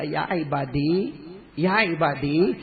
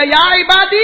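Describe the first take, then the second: First: Slow, gentle call with a rising end; loving call. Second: Loud, high, thundering summons; furious raised-voice call; angry call. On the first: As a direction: call out tenderly, drawing the words out. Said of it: "اللہ اتنا پیار سے بولے گا". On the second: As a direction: shout it out in acted wrath. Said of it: "اب غصے میں اللہ کہے گا". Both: Acted.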